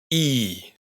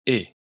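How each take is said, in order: First: "i" held long as "eee"; long closed vowel. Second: "i" short, as in English "it"; short open vowel. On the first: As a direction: stretch "i" into a tight, long "ee". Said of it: "Vocal larga". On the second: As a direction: keep "i" brief and open, "ih". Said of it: "Vocal corta". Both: Shown as a demonstration.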